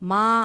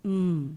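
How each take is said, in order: First: The consonant is followed by a vowel sound. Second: The consonant sound is said with no vowel. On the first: The speaker calls it wrong. "Ma alla" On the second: The speaker calls it right. "M sounds M"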